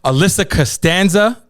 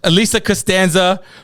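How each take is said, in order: First: The name is said with an English accent. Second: The name is said with a Spanish accent. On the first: The speaker calls it wrong. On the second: The speaker calls it right.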